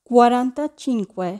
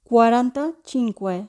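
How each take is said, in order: Both takes have the same delivery.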